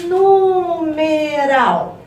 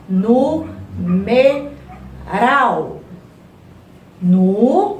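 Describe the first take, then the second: First: NUUU-MEEE-RAAAL, drawn out in one long, higher-pitched glide; stretched-out word. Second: NU... ME... RAL, three separate syllables with pauses; sílaba por sílaba. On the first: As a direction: stretch every vowel of "Numeral" like calling it out. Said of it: "quando a gente fala a palavra". ("Numeral" bem esticado e mais agudo, sem pausas) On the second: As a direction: chop "Numeral" into evenly beaten syllables. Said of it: "Repete a palavra aí". ("Numeral" separado, nu... me... ral) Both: Shown as a demonstration.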